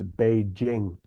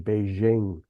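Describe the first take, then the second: First: The name is said in a non-American way. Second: The name is said the common American way. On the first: The speaker calls it right. "but it's it's Beijing" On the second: The speaker calls it wrong. "A lot of Americans say Beijing"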